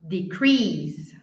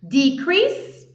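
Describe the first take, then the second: First: The stress is on the second syllable. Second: The stress is on the first syllable. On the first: It is used as a verb. "a segunda é o verbo" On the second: It is used as a noun. "a primeira coluna ali é o substantivo"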